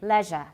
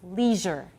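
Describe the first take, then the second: First: It is said with a British pronunciation. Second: It is said with an American pronunciation. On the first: "In British, it's usually leisure" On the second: "In American English, usually it's leisure"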